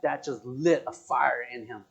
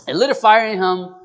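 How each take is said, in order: First: Said in the usual way. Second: Loud, higher preacher's repeat; punchy, raised sermon voice; sermon emphasis. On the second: Real, not acted. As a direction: drive it home like a preacher. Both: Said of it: "This is gonna be, like, a sermon".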